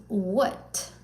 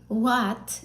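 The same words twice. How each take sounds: First: "what" with a short uh vowel, rising; standard English what. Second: "what" with an open ah vowel, like wot; Turkish-style what. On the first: Teacher gives the correct "what" after the wrong one, short uh vowel. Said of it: "instead of". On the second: Teacher shows the wrong "what" to a student, open vowel. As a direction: say "what" as a Turkish speaker might. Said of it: "some Turkish people say". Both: Shown as a demonstration.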